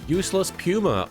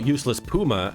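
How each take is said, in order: First: Puma is pronounced the British way. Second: Puma is pronounced the American way. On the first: "We say Puma in England" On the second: "as you'd say in the States"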